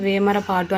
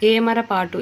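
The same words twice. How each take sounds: First: వేమరపాటు opening with a v; added v glide. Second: Said in the usual way. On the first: Shown as a demonstration. Teacher showing an error, వేమరపాటు with an added v. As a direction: put v before the first vowel of వేమరపాటు. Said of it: "యాని వాని వాడి". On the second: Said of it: "అచ్చు ఉంది ఏ అని".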